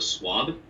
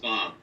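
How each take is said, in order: First: The name is said with a W sound. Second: The name is said with a V sound. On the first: This is the easier version many people use. "as if there's a W instead of a V. So Swab" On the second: This is the name's own pronunciation. "It's pronounced Svav"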